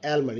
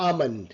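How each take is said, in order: First: "almond" with the L sounded; wrong pronunciation. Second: "almond" as AH-mond, L silent; correct pronunciation. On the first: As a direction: say "almond" as EL-mon. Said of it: "not almond". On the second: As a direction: say "almond" with an open ah and no L. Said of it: "it's a almond". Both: Shown as a demonstration.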